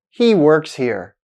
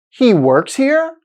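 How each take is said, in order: First: "He works here" as a statement, dropping in pitch on "here"; falling intonation. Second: "He works here" as a question, pitch climbing high on "here"; rising intonation. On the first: Teacher shows learners a declarative statement, falling intonation. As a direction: let "here" fall at the end, slow and declarative. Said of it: "with a falling intonation at the end". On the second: Teacher shows learners how a statement becomes a question, rising intonation. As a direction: lift "here" sharply at the end, slowly asking. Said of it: "with a rising intonation at the end".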